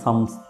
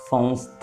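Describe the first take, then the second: First: The m is a plain, fully closed m. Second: The m is a nasalized vowel sound. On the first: "അത് സാധിക്കില്ല എന്നുണ്ടെങ്കിൽ സംസ്ഥ എന്ന് ചൊല്ലിയാലും വിരോധമില്ല" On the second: "അനുനാസിക ശബ്ദമാണ് അവിടെ പുറപ്പെടുവിക്കേണ്ടത്"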